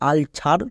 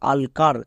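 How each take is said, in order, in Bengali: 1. দ্বিতীয় সিলেবলটি ch ধ্বনি দিয়ে শুরু হয়। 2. দ্বিতীয় সিলেবলটি k ধ্বনি দিয়ে শুরু হয়। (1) "অনেকে ভুল করে উচ্চারণ করে আলছার" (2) "বা আলকার"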